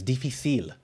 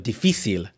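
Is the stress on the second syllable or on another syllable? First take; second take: another syllable; second syllable. First: The stress is not on the second syllable. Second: The stress is on the second syllable. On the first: The speaker calls it wrong. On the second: The speaker calls it right.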